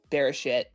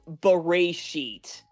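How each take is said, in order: First: It is said to sound like an English curse word. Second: It is said with a Hebrew-style pronunciation. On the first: The speaker calls it wrong. "way more accurate than um Bereshit. But I know the second one's fun" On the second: The speaker calls it right. "it's technically pronounced Bereshit"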